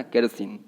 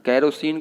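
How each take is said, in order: First: केरोसिन without the o, "ker-sin"; केरोसिन squeezed to "ker-sin"; correct pronunciation. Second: केरोसिन with a full o in the middle; केरोसिन read as spelt; wrong pronunciation. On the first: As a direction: say केरोसिन lower, swallowing the middle vowel. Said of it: "केरोसिन बोलना है ना". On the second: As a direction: say केरोसिन as "ke-RO-sin". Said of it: "केरोसिन नहीं बोलना है". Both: Shown as a demonstration.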